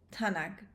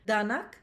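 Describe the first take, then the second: First: The word begins with a voiceless t sound. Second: The word begins with a voiced d sound. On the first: This is the Western Armenian form. "we say t in Western Armenian" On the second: This is the Eastern Armenian form. "When we have a letter d in Eastern Armenian"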